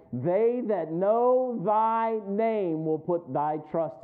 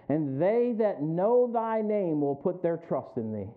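First: "know thy name" drawn out slowly and firmly; "They that know thy name" very slow, every word stressed; emphatic slow rereading. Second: Said in the usual way. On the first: Shown as a demonstration.

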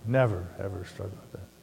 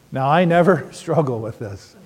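First: Much softer, lower, dry never ever; quiet sarcastic aside; deadpan irony. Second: Joking with a laugh on never; tongue-in-cheek denial to the room; mock innocent boast; ironic claim. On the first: Pretend. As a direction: murmur the joke under your breath. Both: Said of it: "Right, honey?".

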